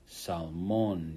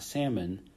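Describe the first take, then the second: First: The stress is on the last syllable. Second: The stress is on the first syllable. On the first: The speaker calls it right. "You got that accent right there" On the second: The speaker calls it wrong. "not salmon"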